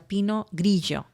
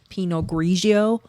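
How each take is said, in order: First: It is said with a Spanish accent. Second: It is said with an American accent. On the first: The speaker calls it right. "I feel more comfortable doing that too" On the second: The speaker calls it wrong. "that was the best American accent I've ever heard"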